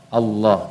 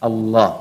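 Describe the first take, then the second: No difference in how they are said.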